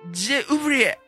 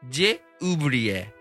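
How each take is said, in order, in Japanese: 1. もっと感情を込めて言っています。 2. 感情を込めず、平坦に言っています。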